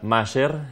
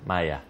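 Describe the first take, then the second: First: The name is said with Spanish sounds, ending in r. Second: The name is said with German sounds, ending in a. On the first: "bien castellanizado" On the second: "la pronunciación en alemán sería Maya"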